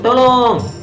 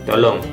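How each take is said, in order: First: It is said with urgent, lively intonation. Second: It is said with flat, level intonation. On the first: The speaker is calling for help. "ketika orang mengatakan minta tolong" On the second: The speaker is making a polite request. "dengan intonasi yang lebih datar"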